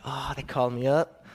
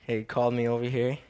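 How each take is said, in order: First: Puffed-up official tone, self-mocking; a put-on official voice, gently teasing himself. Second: Said in the usual way. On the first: Shown as a demonstration. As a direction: play it grand and important, tongue in cheek. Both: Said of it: "I sound so official".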